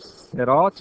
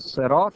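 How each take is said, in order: First: It begins with a heavy, emphatic s sound. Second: It begins with a light, plain s sound. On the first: "هم با صاد درسته" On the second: "هم با سین درسته"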